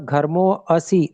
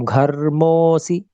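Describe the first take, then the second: First: An extra 'a' vowel is heard before 'si'. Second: No extra vowel is heard before 'si'. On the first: The speaker calls it wrong. "अ उच्चारण सुनाई दिया, तो अ नहीं आना चाहिए" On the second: The speaker calls it right. "ऐसे बोल देंगे"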